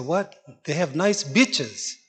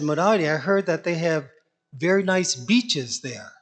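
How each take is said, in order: First: "bitches" said plainly, the way Murari heard the word, in slow disbelief; "What? They have nice bitches" repeated slowly as a startled echo; Murari's shocked mishearing. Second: "beaches" said the Indian way, short i sound so it sounds like "bitches", mildly imitated; a light Indian accent on "beaches", vowel clipped short like "bitches". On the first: Retold or imitated. Murari echoing Vamsi in startled disbelief, slow plain "bitches". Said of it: "Murari said".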